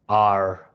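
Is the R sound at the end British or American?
American. The word ends with a strong American R sound.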